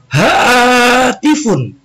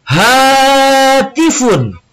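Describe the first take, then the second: First: "Hatifun" slow, high and drawn out; model pronunciation. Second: "Hatifun" louder and higher, slow and drawn out; louder repetition. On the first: Teacher models "Hatifun" for students to echo. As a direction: sound out "Hatifun" slowly for repetition. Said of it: "kosakata yang ketiga". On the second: Teacher urges students to repeat "Hatifun" louder. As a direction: call out "Hatifun" with more voice. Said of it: "lebih keras suaranya". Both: Shown as a demonstration.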